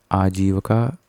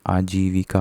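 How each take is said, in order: First: आजीविका said as "aajeevaka"; "aa-jee-va-ka" for आजीविका; wrong, missing i. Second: आजीविका said as "aajeevika"; "aa-jee-vi-ka" for आजीविका; correct vi sound. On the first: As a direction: drop the i after v in आजीविका. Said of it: "लगाना भूल गया है". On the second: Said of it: "होता है". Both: Shown as a demonstration.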